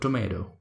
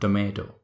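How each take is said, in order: First: It is said in an American accent. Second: It is said in an Indian accent. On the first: "In American accent is called tomato"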